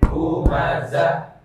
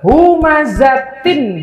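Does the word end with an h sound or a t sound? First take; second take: h sound; t sound. First: The word ends with a breathy 'h' sound. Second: The word ends with a 't' and nasal vowel. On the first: The reader stops at the end of the verse. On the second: The reading continues without stopping.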